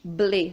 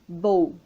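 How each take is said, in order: First: The syllable ends in a clear vowel sound. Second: The syllable ends in a dark L sound. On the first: The speaker calls it wrong. "nós não falamos ble" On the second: The speaker calls it right. "nós falamos bowl"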